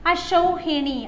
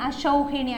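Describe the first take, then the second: First: അശൗഹിണി said higher with a falling end; careful dictation. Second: Said in the usual way. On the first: Shown as a demonstration. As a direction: spell it out for the class. (ഉയർന്ന സ്വരത്തിൽ ഉച്ചരിക്കുന്നു) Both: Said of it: "അശൗഹിണി എന്ന് വെച്ചാൽ".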